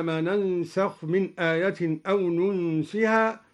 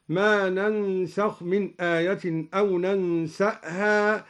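First: Said in the usual way. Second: ننسأها said "nansa'ha", with a glottal stop; added hamza. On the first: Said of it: "قرأ الدوري بفتح النون". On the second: Shown as a demonstration. Teacher demonstrating al-Duri's reading, ننسأها as "nansa'ha". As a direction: open n and s in ننسأها, then catch a hamza. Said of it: "وفتح السين وهمزة بعدها هكذا".

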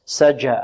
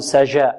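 First: Low, deliberate سجى, jim fully closed; correct hard jim. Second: سجى with the j not fully stopped; faulty jim. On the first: Teacher models the strong letter jim for pupils, hard jim. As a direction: say سجى with a stopped jim from mid-tongue. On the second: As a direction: say سجى with a loose, leaking jim. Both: Shown as a demonstration. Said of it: "لا نقول سجى".

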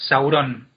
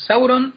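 First: "Sauron" stressed on the last syllable, RON; wrong final stress. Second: "Sauron" stressed on SAU; correct first-syllable stress. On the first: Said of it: "O sea, no es Sauron". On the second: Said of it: "el acento nunca va". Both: Shown as a demonstration.

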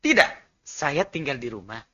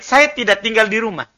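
First: "Tidak" set apart, then "saya tinggal di rumah" low and hushed; pause after TIDAK. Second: "saya tidak tinggal di rumah" in one run; no pause after TIDAK. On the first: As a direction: answer "Tidak", pause, drop very softly for the rest. ("Tidak", jeda, lalu "saya tinggal di rumah" pelan) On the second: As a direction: join "tidak" straight to "tinggal". ("saya tidak tinggal di rumah" tanpa jeda) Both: Shown as a demonstration. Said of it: "Perhatikan nadanya".

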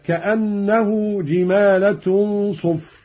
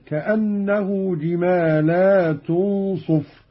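First: "جمالة" as "jimaalatun", short a after l; slow recitation, no stretch on the l of "جمالة"; singular, short lam. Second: "جمالات" as "jimaalaatun", long aa after l; slow recitation stretching the laa in "جمالات"; plural, long lam. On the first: Teacher reads the verse before the variant, "جمالة" as jimaalatun. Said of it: "قرأ قالون بمد اللام". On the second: Teacher demonstrates Qalun's plural, "جمالات" with long laa. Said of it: "قرأ قالون بمد اللام على الجمع هكذا". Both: Shown as a demonstration.

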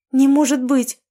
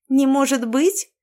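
First: High, loud gasp of disbelief. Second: Slow, high, sneering echo; mock her words slyly; snide mocking echo. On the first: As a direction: gasp it out, stunned. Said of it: "ахнула я". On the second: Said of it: "голос дрогнул ехидцей". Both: A narrator's reading.

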